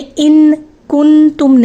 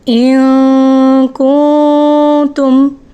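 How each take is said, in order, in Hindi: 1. जीभ लगाकर n पूरी तरह बोला जाता है। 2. n नाक की हल्की गुंजन के रूप में छिपा रहता है। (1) "नहीं कहा, ऐसे तो जाहिर हो जाएगा" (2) "यहाँ पे हमने किया इख्फा"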